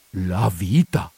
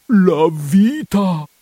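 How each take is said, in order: First: Said in the usual way. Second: Higher, louder and very slow, drawn out in dread; anguished cry. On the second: Acted. Priest crying out to his housekeeper in dread. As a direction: wail it as if life hangs on it. Repeats the words, second cried out.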